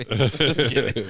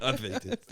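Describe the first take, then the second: First: Laughed out, much louder; laughing. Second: Said in the usual way. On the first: Shown as a demonstration. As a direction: burst out laughing on it.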